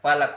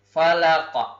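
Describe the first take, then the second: First: The final consonant stops flat without any echo. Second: The final consonant is released with a bouncing echo. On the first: The speaker calls it wrong. "Tidak boleh dibaca falak" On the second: The speaker calls it right. "tetapi cara membacanya adalah falaq"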